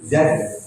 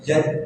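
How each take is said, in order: First: The consonant is a clear buzzing z. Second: The consonant sounds like j, tongue raised. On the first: The speaker calls it right. "kalau nempelnya di kursi bawah, ini jadinya zain" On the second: The speaker calls it wrong. "Kalau zaj itu nempelnya di kursi atas"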